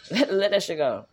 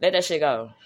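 First: Slower, with a laugh at the start; amused, slower "Let that shit go"; laughing repeat. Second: Said in the usual way. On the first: Real, not acted. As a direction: laugh it off and say it again.

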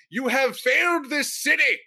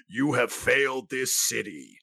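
First: Crackling lightning voice. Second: Slow, dramatic lightning round voice; crackling lightning voice. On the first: Retold or imitated. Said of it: "in your lightning round voice". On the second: Shown as a demonstration. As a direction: growl it out slowly like a vigilante. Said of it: "In my lightning round voice".

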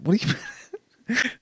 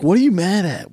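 First: Retold question cracking into laughter; laughing. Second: Higher, baffled question to a mad wife; retelling his clueless question to his wife. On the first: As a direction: question broken by a laugh, fast. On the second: Retold or imitated. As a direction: ask it honestly puzzled. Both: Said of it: "I'm like".

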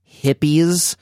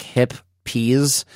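First: Hippies said plainly as the word for hippie people; hippies, ordinary stress on the first syllable. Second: Hip peas split into two slow words, hip then peas, rising on peas. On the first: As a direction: hippies read straight as the normal word. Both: Shown as a demonstration. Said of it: "It's like hip peas".

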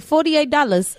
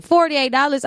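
First: Lightly mocked Vietnamese accent, higher. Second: Said in the usual way. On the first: Nail tech quoting the price, a light mock Vietnamese accent. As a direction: imitate the nail tech's Vietnamese accent, half-joking. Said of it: "did you really have to mock the accent". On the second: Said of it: "So I'm like".

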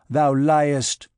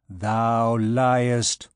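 First: Loud burst of fury; furious accusation. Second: Cold, level accusation from a shadow; coldly. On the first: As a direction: hurl it out as an angry accusation. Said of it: "shook the arm of Phoebus in a fury". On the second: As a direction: repeat it coldly, without raising the pitch. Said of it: "said the shadow coldly". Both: A narrator's reading.

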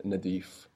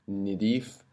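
First: Nadif with a in the first syllable; short a at the start of Nadif; A vowel. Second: Nidif with i in the first syllable; short i at the start of Nidif; I vowel. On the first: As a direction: Nadif said na-DEEF. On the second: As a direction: Nidif said ni-DEEF. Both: Shown as a demonstration. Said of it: "the difference between".

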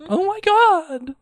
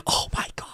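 First: Very high, drawn-out squeal; mock freak-out. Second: Barely voiced whispered freak-out; silent mouthing. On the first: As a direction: act out a fan's slow squeal. Acting out the listener freaking out. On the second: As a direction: mouth it in a whisper, pretend excitement. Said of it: "I was silently mouthing".

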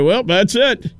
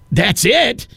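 First: Imitating a guide wrapping up, higher; casual imitated sign-off; matter-of-fact tour guide. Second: Higher, rising incredulous question; acted-out appalled astonishment; shocked disbelief. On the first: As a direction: state it as the simple end of the tour. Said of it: "I was just shocked when he said". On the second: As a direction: question it as if you can't believe that's all. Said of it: "That's how I felt".

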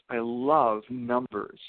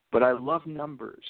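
First: "love" stretched out slowly; stress on LOVE. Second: Said in the usual way. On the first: Retold or imitated. Retelling a student's passion for numbers, "love" stretched out emphatically.

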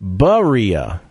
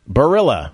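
First: "Barilla" as buh-REE-uh; corrected Barilla pronunciation. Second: "Barilla" as buh-RILL-uh; English-style Barilla. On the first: Host revealing the pasta brand's real name, corrected pronunciation. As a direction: say "Barilla" with "buh" first and silent L. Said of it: "but they go bu". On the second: Host guessing the pasta brand's name, English-style pronunciation. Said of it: "Is it Barilla?". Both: Shown as a demonstration.

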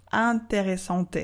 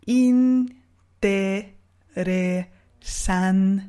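First: Interesante said as ɛ̃teʁesɑ̃t, nasal; French-style nasal. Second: Interesante stretched syllable by syllable, in-te-re-san-te; very slow model. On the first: Teacher imitating the French learner's interesante. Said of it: "Je ne veux pas entendre". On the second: Teacher modelling interesante very slowly. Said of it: "ce que je veux". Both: Shown as a demonstration.

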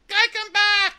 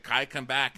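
First: Very high, loud parroting shriek; Yuki. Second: Said in the usual way. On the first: Retold or imitated. Yuki repeats words she doesn't understand, shrieked parroting. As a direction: echo it back in a squeaky cartoon voice. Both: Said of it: "she's just repeating words".

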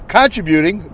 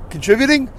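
First: Contributing with stress on the first syllable, CON-tribbuting; contributing, con syllable leaned on. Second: Contributing with stress on the second syllable, con-TRIB-uting; contributing, the tri syllable leaned on. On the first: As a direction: say contributing as CON-tri-buting, open first vowel. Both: Shown as a demonstration. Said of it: "either way".

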